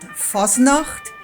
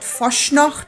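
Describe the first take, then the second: First: The middle consonant is a plain 's' sound. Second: The middle consonant is an 'sh' sound. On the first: The speaker calls it right. "it's called Fasnacht" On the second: The speaker calls it wrong. "It's not called Faschnacht"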